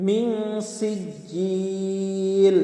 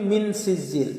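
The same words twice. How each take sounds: First: মিন সিজিল with a held nasal on মিন, slow; nasal ghunna. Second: মিন সিজিল without nasal hold, quick; wrong reading. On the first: Teacher giving the correct মিন সিজিল with ghunna. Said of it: "একটু গুন্না করতে হবে". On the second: Teacher imitating the wrong মিন সিজিল. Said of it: "মিন সিজিল বললে ভুল হবে". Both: Shown as a demonstration.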